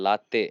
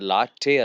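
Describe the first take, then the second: First: The t is a soft dental sound. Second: The t is a hard retroflex sound. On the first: The speaker calls it right. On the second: The speaker calls it wrong. "ಲಾಟೆ ಅಲ್ಲ"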